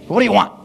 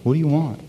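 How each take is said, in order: First: The question sounds irritated and impatient. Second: The question sounds warm and caring. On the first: The asker is fed up with being bothered. The speaker calls it wrong. "Do you ever say that to your kids? ... Now what? ... Not like that" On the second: The asker sincerely wants to know the answer. The speaker calls it right. "I love that question"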